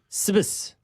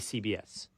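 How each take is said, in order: First: The acronym is pronounced as a single word. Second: The acronym is spelled out letter by letter. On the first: The speaker calls it wrong. "You don't say" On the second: The speaker calls it right. "You say"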